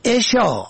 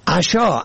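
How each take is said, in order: First: عشا said "eshaa", opening on e; kasra on first letter. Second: عشا said "ashaa", opening on a; fatha on first letter. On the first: Teaching the word for bedtime, short e vowel. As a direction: say عشا as "e-shaa". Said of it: "به کسر اول". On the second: Teaching the word for evening meal, short a vowel. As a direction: say عشا as "a-shaa". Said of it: "به فتح اول". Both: Shown as a demonstration.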